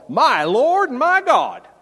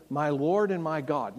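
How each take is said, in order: First: Loud, high, stretched-out Southern exclamation; hammed-up Southern drawl, slow and booming. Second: Said in the usual way. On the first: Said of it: "my best Southern drawl". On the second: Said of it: "some people say here that this is Thomas saying".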